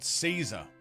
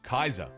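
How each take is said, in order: First: It begins with an S sound, rhyming with 'freezer'. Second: It begins with a K sound, rhyming with 'wiser'. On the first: This is the usual modern way of saying it. "not Caesar" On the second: This is how it was likely said in ancient times. "this actually probably was pronounced Kaiser"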